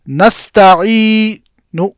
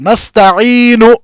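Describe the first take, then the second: First: The final vowel is only faintly and briefly voiced. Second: The final vowel is pronounced fully and clearly. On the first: "आप फकत इस मुकम्मल हरकत का तिहाई हिस्सा अदा करेंगे" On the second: "इस हरकत को पूरा पूरा अदा किया जाएगा"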